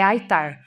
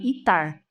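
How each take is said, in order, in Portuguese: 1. ITAR é falado do jeito americano. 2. ITAR é falado do jeito brasileiro. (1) "a pronúncia que eu sempre escutei é" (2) "Aqui no Brasil eu já ouvi algumas pessoas falarem"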